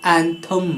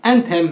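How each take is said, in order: First: एंथम with a short "thum" ending; एंथम, second vowel reduced to "uh"; correct pronunciation. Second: एंथेम with a full "e" in "them"; lower-voiced एंथेम, second syllable "them"; wrong pronunciation. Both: Shown as a demonstration. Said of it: "एंथेम नहीं".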